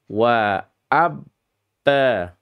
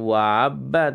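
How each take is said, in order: First: The two words are kept apart. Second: The two words run together as one. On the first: The speaker calls it right. "tapi wa abba" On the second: The speaker calls it wrong. "jangan wabba"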